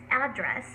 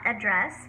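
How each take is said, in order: First: The stress is on the first syllable. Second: The stress is on the second syllable. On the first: It is the noun form. The speaker calls it right. "So the first syllable has the stress" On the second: It is the verb form. The speaker calls it wrong. "It's not address, which is the verb form"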